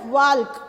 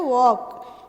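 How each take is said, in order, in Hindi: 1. इस शब्द में L की आवाज़ बोली जाती है। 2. इस शब्द में L की आवाज़ साइलेंट रहती है। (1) "लेकिन हम वाल्क बोलते नहीं है" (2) "ल को हम क्या रखते हैं, साइलेंट रखते हैं, हम बोलते हैं वॉक"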